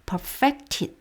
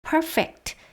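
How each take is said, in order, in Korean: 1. 강세는 두 번째 음절에 있어요. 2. 강세는 첫 번째 음절에 있어요. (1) "동사면 perfected 해서 강세가 뒤로 갑니다" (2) "형용사일 때는요, 이름절 강세인데"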